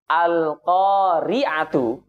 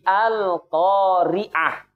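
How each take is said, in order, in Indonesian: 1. Kata ini berakhir dengan bunyi t dan vokal u. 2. Kata ini berakhir dengan bunyi h yang lembut.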